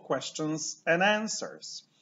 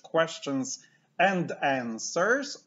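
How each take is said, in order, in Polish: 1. D na końcu 'and' się gubi. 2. D na końcu 'and' się wymawia.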